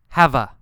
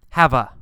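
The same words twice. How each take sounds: No difference in how they are said.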